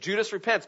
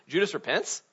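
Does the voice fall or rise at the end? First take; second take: fall; rise. First: It is said as a statement, falling. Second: It is said as a question, rising.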